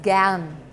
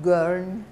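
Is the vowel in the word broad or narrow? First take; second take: broad; narrow. First: The vowel is broader and more open. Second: The vowel is narrower and less open. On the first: The speaker calls it right. "the A is a bit broader" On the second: The speaker calls it wrong. "not gern"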